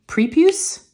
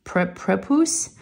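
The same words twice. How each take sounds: First: "prepuce" said as PREE-pyoos, rising high; unsure pronunciation. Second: "prepuce" as PREP-oos, short e, slow; unsure pronunciation. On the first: Trying out a new word for viewers, "prepuce" as a questioning PREE-pyoos. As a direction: try "prepuce" with a long ee and a questioning lift. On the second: Trying out a new word for viewers, "prepuce" as a halting PREP-oos. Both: Shown as a demonstration. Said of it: "I don't know if I'm saying it right".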